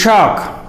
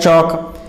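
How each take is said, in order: First: Chalk with silent L, "chawk"; correct pronunciation. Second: Chalk as the short mistaken form; wrong pronunciation. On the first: Teacher correcting the word, chalk said "chawk". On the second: Teacher showing learners what to avoid, chalk mispronounced. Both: Shown as a demonstration. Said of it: "It is not pronounced as".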